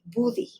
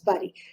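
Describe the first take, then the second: First: The word is read with Spanish pronunciation. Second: The word is read with English pronunciation. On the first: The speaker calls it wrong. "by someone that only speaks Spanish, it would be buddy" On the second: The speaker calls it right. "they need to know that this should be pronounced as buddy"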